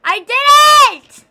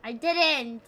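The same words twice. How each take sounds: First: High, very loud drawn-out "I didn't"; slow full-volume shriek of "I didn't"; shouted denial. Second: Said in the usual way. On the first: Real, not acted. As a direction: yell "I didn't" with everything. Shouting down chat.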